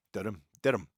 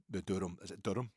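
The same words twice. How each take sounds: First: Durham, Durham tried louder as a Turkish word; trying the Turkish way. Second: Said in the usual way. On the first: Shown as a demonstration. Trying the Turkish name of the wrap, louder. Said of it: "they probably pronounce it, eh, Turkish". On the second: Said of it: "they probably pronounce it".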